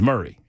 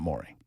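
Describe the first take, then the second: First: The first vowel sounds like in 'hurry'. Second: The first vowel sounds like in 'more'. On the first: This is how local listeners say the county name. The speaker calls it right. "it is Murray" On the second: This follows the spelling of the county name. The speaker calls it wrong. "It is not Maury"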